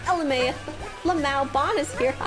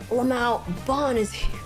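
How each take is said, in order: First: It is said in a happy tone. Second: It is said in an angry tone. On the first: "it could have been like happy" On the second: "it could be angry"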